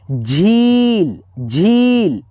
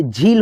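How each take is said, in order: First: झील with the ee held very long; झील said slowly as jheeeel; stretched long ee. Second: Said in the usual way. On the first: Shown as a demonstration. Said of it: "खींच करके आवाज़ आया".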